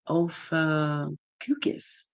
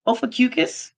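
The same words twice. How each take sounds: First: Ophacucus sounded out slowly, syllable by syllable; unsure name reading. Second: Ophacucus asked back, rising high at the end; questioning retry. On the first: Reading a viewer's name off the screen, slowly sounding it out. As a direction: draw out each part of Ophacucus like reading it for the first time. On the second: Second try at the viewer's name, doubtful and rising. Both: Real, not acted. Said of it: "I'm probably saying that wrong".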